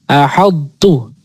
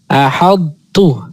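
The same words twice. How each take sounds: Both takes have the same delivery.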